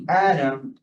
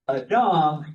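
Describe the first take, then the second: First: The stress is on the first syllable. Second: The stress is on the last syllable. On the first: It names the individual person. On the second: It means human beings in general.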